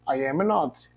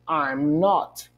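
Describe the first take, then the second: First: All three words are said separately in full. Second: I and am are joined into one syllable. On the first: It suits formal speech. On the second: It suits informal conversation.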